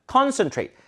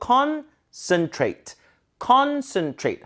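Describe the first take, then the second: First: Concentrate with a full 센 and final 트; Korean-style reading. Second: Concentrate slowly as "CON - sn - trate"; weakened middle. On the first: Teacher showing what is hard to follow, concentrate with full vowels. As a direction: give concentrate every Korean syllable. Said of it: "굉장히 이해하기 힘들다는". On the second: Teacher breaking it down, slow concentrate with weak middle. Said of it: "컨슨이에요". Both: Shown as a demonstration.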